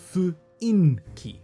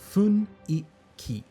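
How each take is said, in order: First: The n sound comes after the i. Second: The n sound comes before the i. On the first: The speaker calls it wrong. "not fuinki. no, no, no" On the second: The speaker calls it right. "It is funiki"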